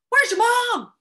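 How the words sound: It is yelled loudly with urgency. It is an emergency. "Might have to yell that"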